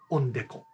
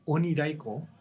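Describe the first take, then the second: First: It is said in Sado dialect. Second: It is said in standard Japanese.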